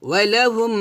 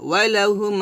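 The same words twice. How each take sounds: Both takes have the same delivery.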